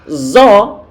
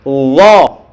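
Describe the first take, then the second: First: A hissing z sound at the start. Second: A thick th-like sound without any hissing. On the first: The speaker calls it wrong. "kok terdengar zo, zo, berarti belum dikeluarkan" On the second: The speaker calls it right. "pastikan ujung lidah kita ditempelkan ujung gigi seri bagian atas"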